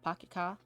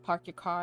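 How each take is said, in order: First: The R sounds are dropped. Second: The R sounds are clearly pronounced. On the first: "I said park your car" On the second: "if you say like park your car"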